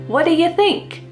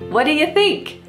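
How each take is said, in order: No difference in how they are said.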